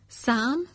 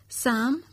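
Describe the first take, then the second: The two takes are said the same way.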